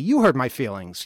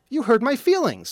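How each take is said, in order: First: The word "you" is stressed. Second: The word "you" is not stressed.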